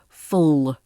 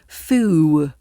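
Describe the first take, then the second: First: The word ends with a dark L sound. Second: The final L becomes an O-like vowel. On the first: The speaker calls it right. "Keep that tip of the tongue up" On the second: The speaker calls it wrong. "turn the dark L into an O sound"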